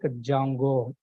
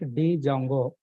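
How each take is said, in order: First: The D at the start is silent. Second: The D at the start is clearly sounded. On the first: The speaker calls it right. "Here D is silent" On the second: The speaker calls it wrong. "not D Django"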